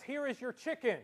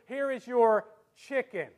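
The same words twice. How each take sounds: First: Said in the usual way. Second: Loud, slow lead-in, CHICKEN set apart as doubtful; finger quotes on CHICKEN. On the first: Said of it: "waiter brings you your food and says". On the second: Shown as a demonstration. Waiter serves food, slow finger quotes on CHICKEN. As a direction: pause before "chicken" as if it's so-called. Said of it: "as opposed to".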